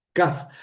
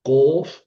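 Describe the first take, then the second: First: "kaf" with a lighter, higher k and an open a; kaf versus kof. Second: "kof" with a hard back-throat k; kof versus kaf. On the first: Teacher contrasting "kaf" with kof for students. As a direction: keep the k of "kaf" forward. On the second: Teacher contrasting "kof" with kaf for students. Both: Shown as a demonstration. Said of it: "una es kof y otra es kaf".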